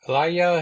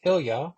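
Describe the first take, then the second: First: Ilya said as "eye-LYE-uh", three syllables; first try at the name. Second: Ilya said as "ILL-yuh", two syllables; corrected name. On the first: Reviewer naming the storybook hero, first saying Ilya as "ih-LYE-uh". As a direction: say Ilya as "ih-LYE-uh" before correcting it. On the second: Reviewer correcting himself, Ilya said "ILL-yuh" with a questioning rise. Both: Shown as a demonstration.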